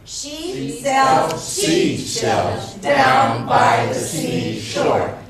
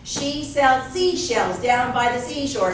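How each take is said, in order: First: The phrase is said at a slower pace. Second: The phrase is said at a faster pace.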